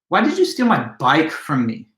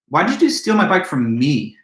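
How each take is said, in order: First: The word bike carries the main stress. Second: The word me carries the main stress. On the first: Of all things, this cherished item was the one taken. "Now the emphasis is placed on the word bike" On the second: Of all victims, this particular person was targeted. "but me?"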